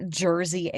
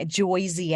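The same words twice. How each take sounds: First: Said in the usual way. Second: "Jersey" said as "Joisey"; mock New Jersey accent, oy vowel; harsh Jersey accent. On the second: Shown as a demonstration. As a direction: put on an old-style "Joisey". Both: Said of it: "that kind of harsher".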